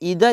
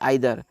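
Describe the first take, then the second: First: The first vowel sounds like 'ee'. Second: The first vowel sounds like 'eye'. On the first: "इसको दो तरह से pronounce करते हैं दोस्तों, इसको बोलते हैं इधर" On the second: "या बोल सकते हैं आइदर"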